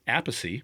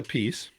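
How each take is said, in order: First: The name ends with a 'pacy' sound. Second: The name ends like the word 'peace'. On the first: "my brother Vinny says apacy" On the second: "because I say a piece"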